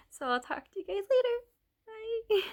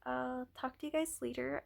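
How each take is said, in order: First: High, fast, giggly goodbye; bright sign-off. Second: Said in the usual way. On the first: Real, not acted. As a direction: chirp a cheery goodbye. Cheerful sign-off after laugh.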